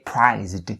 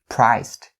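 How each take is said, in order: First: The word ends with a voiced zd sound. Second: The word ends with a voiceless st sound. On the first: The speaker calls it wrong. "Don't say it like that" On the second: The speaker calls it right. "st for the ending sounds of the word priced"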